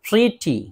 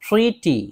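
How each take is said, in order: No difference in how they are said.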